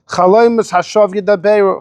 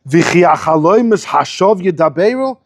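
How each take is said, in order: First: It is said as a flat statement. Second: It is said with a questioning tune.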